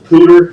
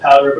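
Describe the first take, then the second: First: The first vowel sounds like 'oo' in boot. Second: The first vowel sounds like 'ow' in cow. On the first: The speaker calls it right. "but I guess it's the Pooter" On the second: The speaker calls it wrong. "I pronounced it wrong, I pronounced it powder"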